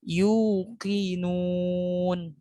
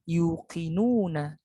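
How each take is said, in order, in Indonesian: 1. Kata itu berakhir pada konsonan mati. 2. Kata itu diakhiri dengan vokal akhir -a. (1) "dimatikan tanda fathahnya menjadi yuqinun" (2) "bukan dibaca yuqinuna"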